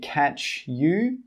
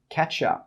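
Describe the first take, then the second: First: The word you is said in full. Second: The word you is reduced to ya. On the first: The speaker calls it wrong. "We don't say catch you" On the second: The speaker calls it right. "we say catch ya"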